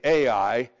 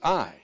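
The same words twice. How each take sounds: First: The name is pronounced the English way. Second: The name is pronounced the Hebrew way. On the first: The speaker calls it wrong. "You don't say Ai in Hebrew" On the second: The speaker calls it right. "It's Ai"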